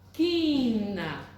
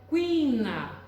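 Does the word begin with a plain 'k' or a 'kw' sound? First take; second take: k; kw. First: The word begins with a plain 'k' sound. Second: The word begins with a 'kw' sound. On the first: The speaker calls it right. "Agora veja sem o U, sem pronunciar o U" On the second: The speaker calls it wrong. "Veja se você pronuncia o U"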